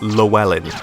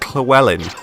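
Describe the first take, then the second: First: It starts with a plain, ordinary L sound. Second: It starts with a breathy, hissing 'tl'-like sound. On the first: The speaker calls it wrong. "not Llewellyn" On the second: The speaker calls it right. "it's pronounced Llewellyn, double L sound is pronounced like cl"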